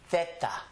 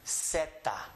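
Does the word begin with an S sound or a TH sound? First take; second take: TH sound; S sound. First: The word begins with a TH sound. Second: The word begins with an S sound. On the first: This is how it is said in Castilian Spanish. "With a T H sound" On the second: This is how it is said in Mexico and Central America. "With an S sound"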